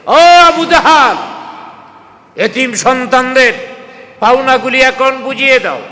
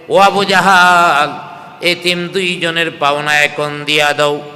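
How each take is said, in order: First: Loud, high-pitched summons; calling out. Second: Retold scolding. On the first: Retold or imitated. Prophet at Abu Jahl's door demanding the orphans' dues, calling out. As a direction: call him out forcefully in raised pitch. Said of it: "দরওয়াজার সামনে দাঁড়ায় ডাক দিছে". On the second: Abu Jahl retelling the Prophet's demand, mild scolding. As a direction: imitate a stern demand without raising the voice. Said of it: "ধমক দিয়া বলছে".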